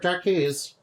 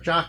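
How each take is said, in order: First: The name is said with two syllables. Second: The name is said with one syllable. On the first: The speaker calls it wrong. "instead of, you know, like Jockeys" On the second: The speaker calls it right. "his name is actually pronounced like Jock"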